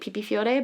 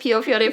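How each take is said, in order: First: The first word sounds like 'pipi'. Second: The first word sounds like 'pio'. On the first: This is the speaker's own personal way of saying it. "I say it Pipi Fiore" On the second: This is the usual way most people say it. "I will introduce it as Pio Fiore for those people who are not ridiculous"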